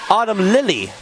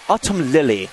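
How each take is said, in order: First: It is said in the speaker's usual accent. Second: It is said in a put-on British accent.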